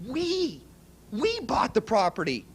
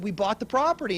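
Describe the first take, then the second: First: "We" jumps high, then repeated with weight; stress on We. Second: Said in the usual way. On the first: Retold or imitated. Repeating the news to his partner, stress on We. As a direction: hit "We" so he finally hears it. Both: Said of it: "No, no, no, you didn't hear me".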